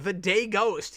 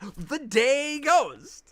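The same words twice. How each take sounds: First: It is said flatly, with little energy. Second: It is said with lots of energy and gusto. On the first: The speaker calls it wrong. "You didn't say it with enough gusto in the list" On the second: The speaker calls it right. "There we go"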